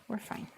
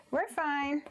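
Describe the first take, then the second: First: Said in the usual way. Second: High-pitched, cheery reassurance; chirpy self-reassurance. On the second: Real, not acted. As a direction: brush off the slip in a high voice. Repeats it to reassure after slip.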